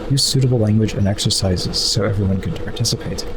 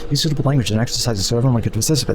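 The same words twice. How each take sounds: First: It is read at a normal, unhurried pace. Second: It is read quickly, trying to sound fast.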